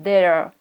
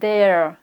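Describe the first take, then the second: First: It is said as one contracted syllable. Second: It is said as one contracted syllable.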